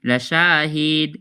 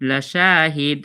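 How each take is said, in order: The two takes are said the same way.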